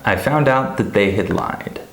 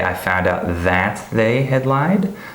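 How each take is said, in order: First: The word 'that' is reduced and weak. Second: The word 'that' is fully stressed.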